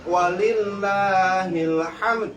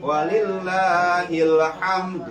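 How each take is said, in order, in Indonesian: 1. Di akhirnya terdengar bunyi d yang jelas. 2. Di akhirnya terdengar bunyi d yang jelas.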